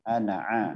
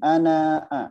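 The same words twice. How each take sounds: First: The final vowel of ana is short. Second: The final vowel of ana is long. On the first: The speaker calls it right. "tapi ana a" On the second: The speaker calls it wrong. "bukan ana a"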